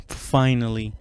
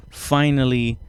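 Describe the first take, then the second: No difference in how they are said.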